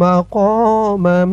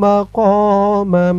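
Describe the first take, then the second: No difference in how they are said.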